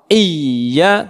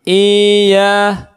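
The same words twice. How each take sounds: First: It rises with far too strong intonation. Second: It is said without any pressure. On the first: "Naik apa intonasinya terlalu kuat" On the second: "Dan juga nggak ditekan"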